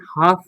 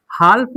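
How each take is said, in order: First: हाफ with long aa straight into f; silent l. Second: हाल्फ with an l before the f; l wrongly sounded. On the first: Teacher giving students the right reading, हाफ without l. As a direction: say हाफ as "half", no l. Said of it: "हाफ पढ़ते हैं". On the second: Teacher warning students off the mistake, हाल्फ with audible l. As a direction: say हाल्फ, voicing the silent l of "half". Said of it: "हाल्फ नहीं पढ़ते हैं". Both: Shown as a demonstration.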